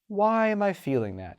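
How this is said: The question sounds openly curious and relaxed. The feeling is being explored with genuine interest. The speaker calls it right. "It's rarely one of open curiosity"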